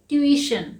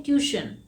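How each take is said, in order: First: "ट्यूशन" as tyoo-ISH-un, three beats; correct pronunciation. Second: "ट्यूशन" as TYOO-shun, two beats; common mispronunciation. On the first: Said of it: "इसका सही pronunciation है". ("ट्यूशन" का सही उच्चारण, ट्यू-इ-शन) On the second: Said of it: "उसे हम कहते हैं". ("ट्यूशन" का आम गलत उच्चारण, ट्यू-शन) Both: Shown as a demonstration.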